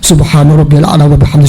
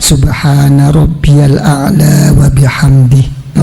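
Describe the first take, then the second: First: The phrase is recited quickly and hurriedly. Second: The phrase is recited slowly and calmly. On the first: The speaker calls it wrong. "mboten usah" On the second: The speaker calls it right. "pun tenang-tenang mawon"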